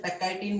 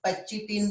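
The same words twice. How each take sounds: First: Pectitin said as "pe-kai-tin" with a k sound in the middle; teacher's pronunciation. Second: Pectitin said as "pe-chi-tin" with a ch sound in the middle; other people's pronunciation. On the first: Biology teacher showing his own way of saying the word, clear careful pronunciation. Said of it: "अब मैं इसे pectitin बोलता हूँ". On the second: Teacher contrasting how other people say the word, careful pronunciation. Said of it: "कुछ लोग pectitin बोलते हैं". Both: Shown as a demonstration.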